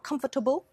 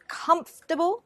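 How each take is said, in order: First: It is said with four syllables. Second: It is said with three syllables. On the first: The speaker calls it wrong. "not comfortable" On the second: The speaker calls it right. "there are only three syllables"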